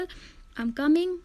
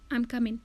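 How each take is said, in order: First: The word ends with a full 'ing' sound. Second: The word ends with a clipped 'in' sound. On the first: It comes before a pause or at the end. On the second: It comes in rapid connected speech.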